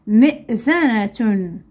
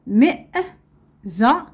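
First: "مئذنة" slowly, joined into one word; slow whole word. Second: "مئذنة" in pieces with clear pauses; syllable by syllable. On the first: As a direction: say "مئذنة" carefully without long breaks. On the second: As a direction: sound out "مئذنة" slowly, stopping between syllables. Teacher splits word, then joins it. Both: Shown as a demonstration.

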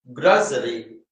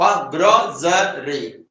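First: Said in the usual way. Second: ഗ്രോസറി split slowly into three syllables. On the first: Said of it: "ഗ്രോസറി syllable ആണല്ലോ". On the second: Shown as a demonstration. Teacher showing the syllables of ഗ്രോസറി, syllable by syllable. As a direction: break ഗ്രോസറി into separate beats, gro-se-ry. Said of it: "syllable ആണല്ലോ".

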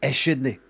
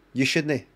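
First: "I shouldn't" as eh-SHOOD-nie; extra leading syllable. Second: "You shouldn't" with a clear "you" before shood-nie; expected wording. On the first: Retold or imitated. Copying what was heard, "I shouldn't" with a small vowel first. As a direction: put a wee "eh" before shouldn't in "I shouldn't". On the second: Shown as a demonstration. Testing the expected line, "You shouldn't" with an audible "you". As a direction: say "You shouldn't", the first word starting with a y. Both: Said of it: "a wee syllable at the".

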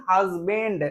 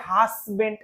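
First: HUSBAND as "haz-bend", buzzing z; the careful "hazz-bend"; correct pronunciation. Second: HUSBAND said as "has-bent", hissing s; the wrong "hassbent" many people say; common mispronunciation. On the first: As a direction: say husband with Z and a soft D ending. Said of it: "actual উচ্চারণটা হচ্ছে". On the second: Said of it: "অনেকে উচ্চারণ করে হাসব্যান্ড". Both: Shown as a demonstration.

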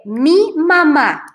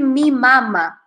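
First: Slow "mi mamá", stressed on the final "má"; acento final en mamá. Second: "mi mama" with stress on the first "ma"; acento equivocado en mama. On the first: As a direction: say "mi mamá" slowly, leaning on the last syllable. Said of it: "Tienen que decir". ("mi mamá" despacio, con la última sílaba más fuerte) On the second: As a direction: stress the opening syllable of "mama" in "mi mama". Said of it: "he escuchado a muchos brasileños decir". ("mi mama" con la primera sílaba de "mama" más fuerte) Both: Shown as a demonstration.

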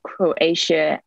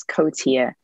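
First: Said in the usual way. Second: "Kotia", Croatia without its r, as the teacher read it; mispronounced Croatia. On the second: Retold or imitated. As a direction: say "Kotia" with a plain K-o opening, no r. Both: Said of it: "read Croatia as Kotia".

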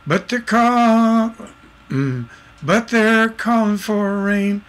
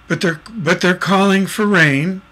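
First: Slow, higher, sustained singing; sung, songwriter trying out the melody; sung lyric. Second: Said in the usual way. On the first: Shown as a demonstration. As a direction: sing the line unaccompanied on held notes. Sings lyric to find its accent. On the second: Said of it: "there's an accent that's not spoken".

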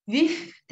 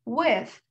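First: With said as "wif", an f instead of th; the wrong way, With ending in an f; With mispronounced with the lip on the teeth; wrong f sound. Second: With said with a lisped th, tongue between the teeth; With with a proper th sound; correct th. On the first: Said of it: "With de değil bakın". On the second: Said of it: "o peltek çıkacak". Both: Shown as a demonstration.

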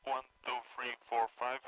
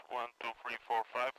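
Both takes have the same delivery.

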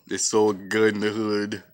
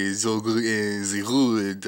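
First: Said in the usual way. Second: French accent. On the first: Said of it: "How did you say". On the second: Shown as a demonstration. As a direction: try the slang in a French accent. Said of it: "I'm from France".

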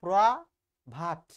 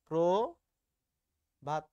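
First: প্রভাত said wrongly as "praa... bhat"; loud, slow long "aa" in place of o in প্রভাত; mispronunciation demo. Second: প্রভাত very slow, split as "prooo... bhat"; syllable-by-syllable o-kar. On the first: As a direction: split প্রভাত, hitting a broad "praa" first. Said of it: "যদি এভাবে উচ্চারণ করো". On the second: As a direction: stretch an o in the first syllable of প্রভাত. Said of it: "প্রভাত বানানকে যদি এভাবে উচ্চারণ". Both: Shown as a demonstration.

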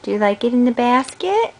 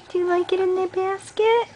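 First: Said in the usual way. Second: Pitched way up, sing-song; high coaxing repeat. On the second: Real, not acted. Parent repeats question, much higher.

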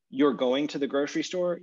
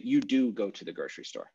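First: Said in the usual way. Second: "do" pressed down firmly, "You do go"; emphatic do. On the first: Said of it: "instead of saying". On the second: Shown as a demonstration. Teacher to class, demoing the English emphatic, "do" stressed. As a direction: lean on "do" to show the emphatic. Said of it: "you would say".

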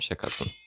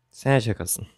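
First: "şakasın" breathed in a voiceless whisper; a hushed, toneless "şakasın". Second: Said in the usual way. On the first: Acted. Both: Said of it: "Harbi söylüyorum".

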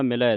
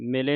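First: ਮਿਲੈ ending in an open 'eh'; dulavan ending. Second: ਮਿਲੇ ending in a close 'ay'; single-lav ending. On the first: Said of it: "ਦਲਾਵਾਂ ਦੇ ਨਾਲ". (ਮਿਲੈ ਦਲਾਵਾਂ ਦੇ ਨਾਲ) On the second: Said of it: "ਨਹੀਂ ਪੜ੍ਹ ਦੇਣਾ". (ਮਿਲੇ ਇੱਕ ਲਾਂ ਨਾਲ) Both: Shown as a demonstration.

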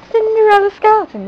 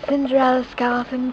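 First: High, quick exclamation of the name; witch exclaiming. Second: Said in the usual way. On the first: A narrator's reading. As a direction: call her name out brightly. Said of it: "the witch exclaimed". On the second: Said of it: "narrator refrain".

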